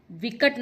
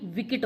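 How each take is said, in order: First: विकट with an "a" in the middle; wrong vowel. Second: विकट with an "i" in the middle; corrected vowel. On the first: Teacher rejecting one spelling, विकट as "vikat". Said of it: "विकट नहीं". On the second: Teacher offering the correction, विकट as "vikit". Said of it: "विकट होता है". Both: Shown as a demonstration.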